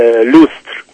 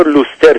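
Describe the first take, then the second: First: Said in the usual way. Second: Vowel slipped into "luster"; Iranian pronunciation of lustre. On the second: Shown as a demonstration. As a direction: break the st cluster in lustre with a vowel.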